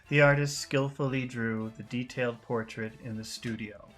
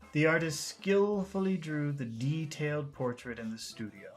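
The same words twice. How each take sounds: First: The sentence is read fairly flat, without focus words. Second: The sentence is read with emphasis on focus words. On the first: "let's just read the sentence" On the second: "now let's read the sentence with intonation"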